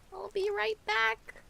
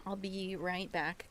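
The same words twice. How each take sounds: First: High sing-song call. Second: Said in the usual way. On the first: Shown as a demonstration. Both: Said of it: "repeats it sing-song".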